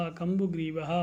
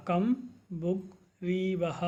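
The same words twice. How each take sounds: First: Said in the usual way. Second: कम्बुग्रीवः said as slow separate syllables, कम्-बु-ग्री-वः. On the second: Shown as a demonstration. Teacher drilling a Sanskrit word, slow and syllabic. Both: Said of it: "इस प्रकार से आपको इन शब्दों का उच्चारण करना है".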